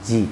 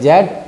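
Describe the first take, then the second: First: The letter is said as "zee". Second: The letter is said as "zed". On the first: "American में" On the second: "British में"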